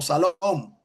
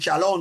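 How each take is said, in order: First: The word begins with a plain s sound. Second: The word begins with an sh sound. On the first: This is how one tribe said it. "sino Salom" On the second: This is how most speakers said it. "Ellos no dicen Shalom"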